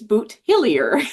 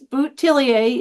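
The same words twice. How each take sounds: First: The name is pronounced the Cape Breton way. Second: The name is pronounced the French way. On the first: "And in Cape Breton" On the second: "is the French version"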